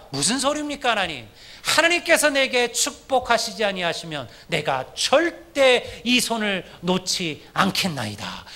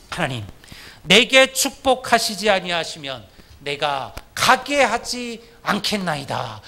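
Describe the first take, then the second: First: Jacob's firm plea. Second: Slow pleading prayer; Jacob's desperate prayer. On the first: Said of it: "야곱이 뭐라고 얘기합니까". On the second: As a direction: beg God slowly, holding on. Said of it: "이게 야곱의 기도였잖아요". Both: Retold or imitated.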